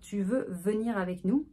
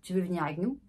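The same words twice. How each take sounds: First: Every word is pronounced clearly. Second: Words are mumbled and swallowed.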